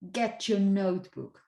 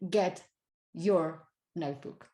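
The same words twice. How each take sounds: First: The t and y merge into a ch sound. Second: The t and y are said as separate sounds. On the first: "these two sounds get together and you might get ch" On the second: "rather than"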